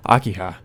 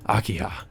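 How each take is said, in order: First: Said in the usual way. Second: "Akiha." said much softer, trailing away; softer, obsessed. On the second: Acted. Killer fixated on his sister, softly murmuring "Akiha.". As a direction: let the second "Akiha." sink to a soft murmur.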